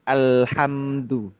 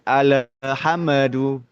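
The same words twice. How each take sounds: First: The L sound is held without any bounce. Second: The L sound is released with a bouncing echo. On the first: The speaker calls it right. "Jadi ditahan gitu kan ya" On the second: The speaker calls it wrong. "Itu itu perlu dikoreksi itu"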